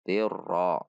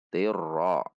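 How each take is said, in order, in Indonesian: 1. Diucapkan dengan huruf r ganda ditahan dengan jelas. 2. Diucapkan dengan huruf r ganda ditahan dengan jelas.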